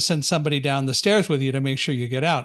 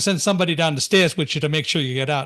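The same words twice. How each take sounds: First: It is said in the speaker's own neutral accent. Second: It is said in an imitated New York accent.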